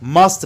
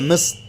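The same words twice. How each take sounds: First: The word has a full, clear vowel. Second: The word has a weak, reduced vowel.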